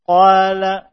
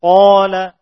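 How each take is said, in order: First: Qala with a thinned, flattened aa after the heavy q; thin alif. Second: Qala with a thick, rounded aa, close to "aw"; a loud Qala, long vowel heavy and dark; thick alif. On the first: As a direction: let the long vowel in Qala go light and open. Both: Shown as a demonstration. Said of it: "tidak dibaca alif dalam keadaan tipis".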